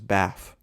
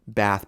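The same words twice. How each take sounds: First: It is said in an AAVE accent. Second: It is said in a standard English accent.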